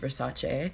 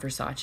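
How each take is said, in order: First: It uses a fancier, snobbier pronunciation. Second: It uses the common everyday pronunciation. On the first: The speaker calls it right. "if you want to be super like snobby" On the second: The speaker calls it wrong. "it's not Versace"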